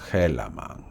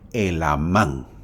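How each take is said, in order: First: It has a half-American pronunciation with a sounded H. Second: It has a Spanish pronunciation with a silent H. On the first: The speaker calls it wrong. "como quieres pronunciarlo medio americano, lo pronuncias Helaman" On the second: The speaker calls it right. "se debe pronunciar en el español Elamán"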